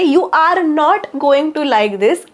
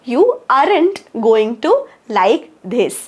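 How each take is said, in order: First: Are not is said as two full words. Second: Are not is merged into one short word.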